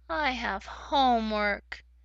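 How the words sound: The voice sounds sad. The speaker is unhappy about having homework. "If I was sad, it might sound like"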